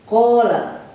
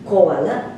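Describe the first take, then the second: First: A single long a vowel replaces the w. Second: A w sound separates two short a vowels. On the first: This is the form actually used. "dibalikan kepada alif ... jadi dibacanya kola" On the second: This is the word's original underlying form. "asalnya itu dibaca qawala"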